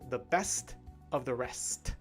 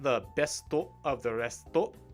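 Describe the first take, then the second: First: Each word stops cleanly on its final consonant. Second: An extra vowel follows each final consonant. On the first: The speaker calls it right. "You cut it off right at the end of the consonant and don't say the vowel" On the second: The speaker calls it wrong. "Not the besto of the resto"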